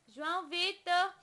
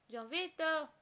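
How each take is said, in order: First: Insistent loud name call; louder call. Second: Said in the usual way. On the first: Real, not acted. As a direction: call his name again, clearly louder. Calling baby's name louder.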